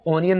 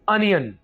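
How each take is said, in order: First: The first vowel sounds like 'aw'. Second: The first vowel sounds like 'uh'. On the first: The speaker calls it wrong. "इसको ऑनियन नहीं बोलना" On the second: The speaker calls it right. "अनियन, ठीक है"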